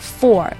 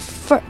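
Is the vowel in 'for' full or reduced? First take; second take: full; reduced. First: The vowel is full and unreduced. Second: The vowel is weak and reduced. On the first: The speaker calls it wrong. "我们不读成for" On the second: The speaker calls it right. "在句中我们会把它简略的读成for 的音"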